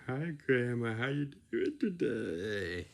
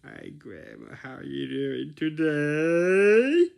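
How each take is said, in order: First: A hint of the silly greeting voice; lightly put-on greeting; toned-down silly voice; milder silly tone. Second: High, loud and slow put-on voice; silly high greeting voice for grandma; silly sing-song tone. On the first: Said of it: "You don't go like this". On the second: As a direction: overdo a sugary greeting. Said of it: "you talk in this tone". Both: Shown as a demonstration.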